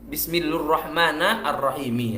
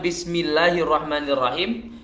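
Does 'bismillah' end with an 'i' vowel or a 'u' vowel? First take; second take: u; i. First: Bismillah is joined with a 'u' vowel. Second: Bismillah is joined with an 'i' vowel. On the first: The speaker calls it wrong. "ini unik sekali cara cara bacanya bismillu" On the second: The speaker calls it right. "bismillahirrahmanirrahim diganti"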